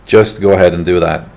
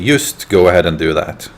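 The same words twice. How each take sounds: First: The word "just" begins with a J sound. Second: The word "just" begins with a Y sound. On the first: "if they want to say, for example" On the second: "Swede will always say"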